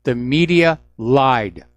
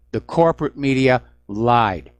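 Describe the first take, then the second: First: "media" stressed, whole line slow and firm; slow, deliberate, punch "media"; flat accusation landing on "media". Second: "corporate" stressed with a falling tune; pointed correction on "corporate". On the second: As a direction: correct yourself by hitting "corporate". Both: Shown as a demonstration.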